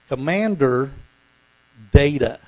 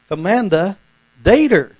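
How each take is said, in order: First: The R is pronounced at the end of Commander. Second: An R sound is added at the end of Data. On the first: "But he doesn't say it that way" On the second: "he doesn't say the R in Commander, but guess where the R is at?"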